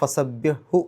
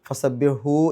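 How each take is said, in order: First: The final vowel is short, not lengthened. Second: The final vowel is drawn out long. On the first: The speaker calls it right. "നീട്ടാതെയാണ് അതിന് ഉച്ചരിക്കേണ്ടത്. അപ്പോൾ ഫസബ്യഹു എന്നേ പറയുള്ളൂ" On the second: The speaker calls it wrong. "എന്ന് പറയില്ല"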